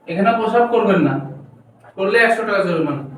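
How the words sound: The pause comes right after 'na'.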